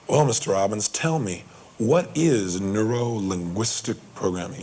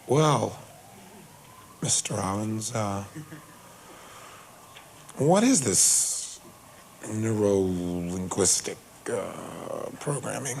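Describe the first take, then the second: First: It is said briskly, with a clear resonant tone. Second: It is said slowly, with hesitant pauses.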